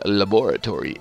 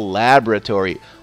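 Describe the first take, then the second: First: It uses a fancier, more refined pronunciation. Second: It uses the plain, everyday pronunciation.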